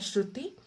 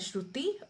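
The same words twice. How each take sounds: First: The name is called louder still. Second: The name is called a little louder. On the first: "और तेज बोलता है" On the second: "और थोड़ा सा तेज बोलता है"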